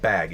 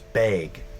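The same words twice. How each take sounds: First: It is said in a standard accent. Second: It is said in a Midwest accent.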